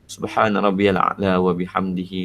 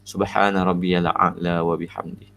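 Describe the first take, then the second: First: It runs straight into the next repetition. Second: It stops at the end before a new breath. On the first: The reciter links each repetition to the next. "Tapi kalau kita nak baca wasal" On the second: The reciter pauses properly between repetitions. "kalau kita nak wakaf, kita wakaf betul-betul"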